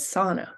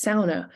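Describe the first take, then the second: First: "sauna" said the English way, first syllable a single open "saw" vowel; American English pronunciation. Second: "sauna" said with an "ow" diphthong in the first syllable; local Finnish-like pronunciation. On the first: Lecturer showing how most U S speakers say it, "sauna" as SAW-nuh. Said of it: "most English speakers pronounce the word as". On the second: Lecturer showing how U P people say it, "sauna" as SOW-nah. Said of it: "many people pronounce it as". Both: Shown as a demonstration.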